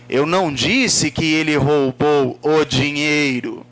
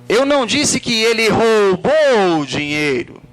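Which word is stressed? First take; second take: dinheiro; roubou. First: The stress falls on the word dinheiro. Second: The stress falls on the word roubou. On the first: It was something other than the money. "Pode ter sido outra coisa" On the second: He did something else with the money. "O que, que ele fez com o dinheiro?"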